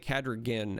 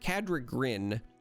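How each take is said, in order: First: The last syllable is said without an R sound. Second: The last syllable is said with an R sound. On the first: The speaker calls it wrong. "I want to say Cadragin every time" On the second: The speaker calls it right. "It's the R in Grin"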